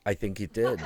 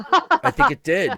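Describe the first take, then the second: First: Said through a real laugh. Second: Much higher, louder squeaky repeat; high mock repeat. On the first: Real, not acted. Answering a friend's pigeon joke, laughing. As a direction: laugh the words out. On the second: Repeating the joke answer to friends in a high squeak.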